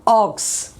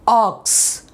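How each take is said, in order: First: The vowel is a rounded, oval-mouthed aw. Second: The same.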